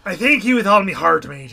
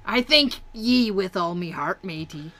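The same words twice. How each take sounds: First: Much louder, quicker pirate echo. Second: Slow, hearty pirate thanks. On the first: Co-host echoing the pirate line back, loud pirate accent. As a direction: belt it out as a hammy pirate. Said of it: "I do love the pirate accent". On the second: Reading a game pirate's dialogue for a voiceover reel, slow pirate accent. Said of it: "'cause I'll read it in". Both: Acted.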